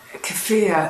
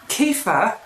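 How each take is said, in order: First: The second syllable sounds like the word 'fear'. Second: The second syllable does not sound like 'fear'.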